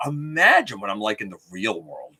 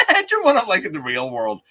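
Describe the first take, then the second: First: Said in the usual way. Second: "Imagine" said high and loud through a laugh; laughing repeat. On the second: Real, not acted. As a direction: laugh it out, higher and louder.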